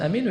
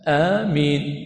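First: The first vowel is short and the m single. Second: The first vowel is long and the m single. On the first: "فجاء القصر" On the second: "والأفصح في ذلك والأكمل المد"

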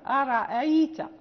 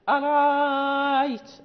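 First: The second glottal stop is softened, between hamza and vowel. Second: The second glottal stop becomes a long a vowel. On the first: "لا نحقق الهمزة الثانية، الأولى محققة والثانية بين بين مسهلة" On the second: "وهو إبدالها ألفا لأن قبلها فتح"

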